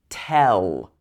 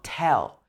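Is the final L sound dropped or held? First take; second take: held; dropped. First: The word ends with a long held L. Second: The word ends without a held L sound. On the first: The speaker calls it right. "it should be tell" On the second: The speaker calls it wrong. "So it's not tell"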